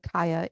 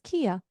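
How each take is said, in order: First: The first vowel sounds like the word sky. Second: The first vowel sounds like the word key. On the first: "I will call her Kaya" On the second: "which I was pronouncing as Kia, like the car brand"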